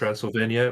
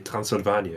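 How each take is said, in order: First: The R is said in an English way. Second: The R is quick and short, Dutch style. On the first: "if you say" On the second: "we say"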